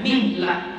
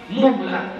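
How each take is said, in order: First: The first vowel is an 'i' sound. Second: The first vowel is an 'u' sound. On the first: "dan mengkasrahkannya" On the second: "dengan mendhammahkan mim"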